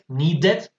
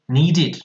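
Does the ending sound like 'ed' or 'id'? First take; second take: ed; id. First: The ending is pronounced like 'ed'. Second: The ending is pronounced like 'id'. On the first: The speaker calls it wrong. "No wanted, needed" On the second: The speaker calls it right. "sino wanted, needed ... Suena como una I D"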